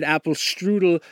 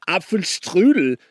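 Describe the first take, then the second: First: Apfelstrudel said the American way, ap-ful-stroo-dul; wrong pronunciation. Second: Apfelstrudel said the German way, AHP-fel-shtroo-del; German pronunciation. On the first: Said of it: "not Apfelstrudel". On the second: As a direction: Apfelstrudel with a sharp German shtr. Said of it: "because you said Apfelstrudel and". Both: Shown as a demonstration.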